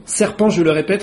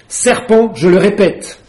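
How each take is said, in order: First: The same accusation, calmer and gentler; softened tone. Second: A higher, louder accusing cry; angry pigeon. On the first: Pigeon repeating its claim, now in a softened tone. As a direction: ease off, let the anger fall away. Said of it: "mais d'un ton radouci". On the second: Pigeon insisting Alice is a serpent, loud and angry. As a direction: hammer the accusation at her. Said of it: "répéta le pigeon". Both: A narrator's reading.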